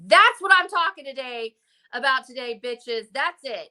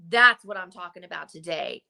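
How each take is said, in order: First: Fired-up declaration. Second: Said in the usual way. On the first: Retold or imitated. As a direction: punch it out like a rallying cry. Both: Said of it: "And you're like".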